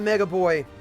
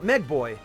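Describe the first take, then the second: First: The first part has two syllables, 'mega'. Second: The first part has one syllable, 'meg'. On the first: The speaker calls it wrong. "I was pronouncing that wrong this whole time" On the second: The speaker calls it right.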